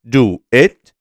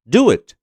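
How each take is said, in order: First: The vowel of do is said in full. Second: The vowel of do is dropped.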